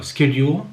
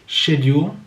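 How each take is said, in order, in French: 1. Il est prononcé avec un accent américain. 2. Il est prononcé avec un accent britannique. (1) "en américain se prononcera schedule" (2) "en anglais britannique schedule"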